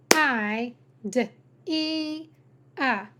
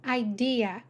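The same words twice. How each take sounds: First: "I, D, E, A" as idea broken into separate sounds; sounded out. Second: Said in the usual way. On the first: Shown as a demonstration. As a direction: pull idea apart with pauses: "I, D, E, A". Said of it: "Every syllable needs a vowel". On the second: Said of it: "purposely chose a three-syllable word".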